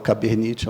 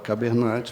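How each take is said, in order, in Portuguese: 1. A palavra é pronunciada com sons do português brasileiro. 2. A palavra é pronunciada sem sons do português brasileiro. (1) "eu abrasileirei o nome" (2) "ela fala Cabernet"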